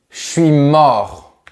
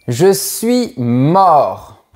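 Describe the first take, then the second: First: Slow, louder, sagging exhausted "Je suis mort"; very casual. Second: Plain. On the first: Teacher showing the slangy way to say tired, exhausted. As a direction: let it drop out like you're done in. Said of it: "Ou encore plus familièrement comme ça". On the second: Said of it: "je dis pas souvent je suis très fatigué". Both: Shown as a demonstration.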